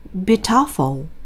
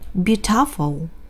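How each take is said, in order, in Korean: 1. 강세는 두 번째 음절에 있어요. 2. 강세는 두 번째 음절에 있어요.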